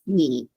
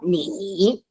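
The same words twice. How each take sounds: First: The tone stays low and falls slightly. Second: The tone dips low and then rises. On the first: The speaker calls it right. "你 is just uh, two one" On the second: The speaker calls it wrong. "It's not 你"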